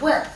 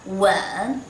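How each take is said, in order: First: "wen" with a sharp falling fourth tone. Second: "Wen" in third tone, dipping then rising. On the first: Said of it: "This one is last tone". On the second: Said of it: "this one third tone". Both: Shown as a demonstration.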